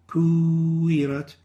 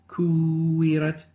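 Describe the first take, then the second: The two takes are said the same way.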